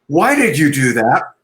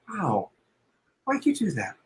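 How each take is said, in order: First: It sounds accusing, like a prosecutor. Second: It sounds curious and warm.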